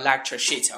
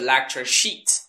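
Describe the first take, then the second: First: The vowel in sheet is short. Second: The vowel in sheet is long. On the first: It sounds like a rude word. The speaker calls it wrong. "短音就变成shit" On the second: It names the lecture handouts. The speaker calls it right. "是长音e"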